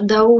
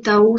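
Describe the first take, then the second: First: The word begins with a voiced D sound. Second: The word begins with a voiceless T sound. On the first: "on peut dire Dao" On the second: "ou Tao, ça avec un T"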